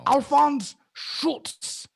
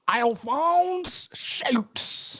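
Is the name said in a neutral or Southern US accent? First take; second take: neutral; Southern US. First: The name is said in a neutral accent. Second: The name is said in a Southern US accent.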